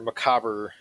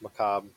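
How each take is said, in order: First: The final R and E are pronounced. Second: The final R and E are silent. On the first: The speaker calls it wrong. "So many people say macabre" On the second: The speaker calls it right. "The R and E are silent"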